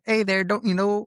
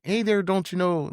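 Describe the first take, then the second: First: High, put-on Michigan accent; imitated Midwest accent. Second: Put-on higher-pitched Fargo-style Midwestern accent. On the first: Imitating a buddy from Michigan slipping into his Midwest accent. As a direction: do a Fargo-style Midwestern greeting. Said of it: "kinda has that type of accent". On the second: Imitating how Midwesterners talk, Fargo accent. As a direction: imitate an upper-Midwest "don't you know" lilt. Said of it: "they talk like that".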